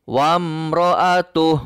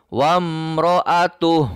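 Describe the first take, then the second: No difference in how they are said.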